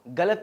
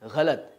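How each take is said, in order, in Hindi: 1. शब्द सादे, कठोर g से शुरू होता है। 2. शब्द संघर्षी gh ध्वनि से शुरू होता है। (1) "गलत नहीं" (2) "क्योंकि ग के नीचे नुक्ता आता है"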